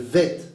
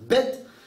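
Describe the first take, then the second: First: It begins with a soft v sound. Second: It begins with a hard b sound. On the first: The letter is written without a dot. "il y a le Vet" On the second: The letter is written with a dot. "tu mets un point, ça devient Bet"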